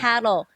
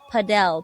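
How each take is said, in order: First: The word is said in a plain English way. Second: The word is said with a Spanish-sounding accent. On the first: The speaker calls it right. "It's paddle" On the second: The speaker calls it wrong. "not padel, ... because of their Spanish accent, it sounds like padel"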